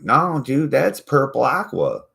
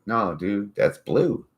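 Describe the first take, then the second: First: Higher, louder insistent whine; mock friend insisting. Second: Said in the usual way. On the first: Friends insisting to him, higher insistent whine. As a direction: whine it back stubbornly. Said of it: "They're like". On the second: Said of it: "I'm like".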